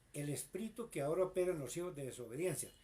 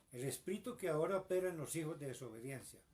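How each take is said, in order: Both takes have the same delivery.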